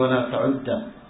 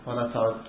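First: The final d sound is doubled and held. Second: The final d sound is short and single. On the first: Do not count it as a unit of prayer. The speaker calls it wrong. "قالوا ولا تعد بتشديد الدال" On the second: Do not return to doing this again. The speaker calls it right. "المشهور في الحديث هذا اللفظ ولا تعد، أي لا يرجع"

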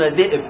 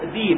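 First: A glottal stop is said in the middle. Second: A long i replaces the glottal stop. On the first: "لا يقولون ذئب" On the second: "يقولون ذيب"

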